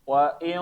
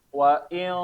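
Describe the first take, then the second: First: The sound comes out through the mouth. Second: The sound comes out through the mouth.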